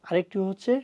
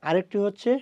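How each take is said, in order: No difference in how they are said.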